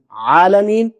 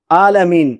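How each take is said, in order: First: عالمین with a proper ع from mid-throat; correct reading. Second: عالمین with a plain Urdu alif and no ع; common wrong reading. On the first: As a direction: give عالمین its true Arabic ع. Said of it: "یہ صحیح ہے". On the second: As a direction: say عالمین the way most people do, without the throat. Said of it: "عموماً پڑھتے ہیں عالمین". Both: Shown as a demonstration.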